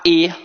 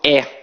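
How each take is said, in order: First: The vowel is said closed. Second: The vowel is said open. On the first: This is how it is said in other states. "a pronúncia é mais fechada" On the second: This is how it is said in Rio de Janeiro. "a nossa pronúncia é muito aberta"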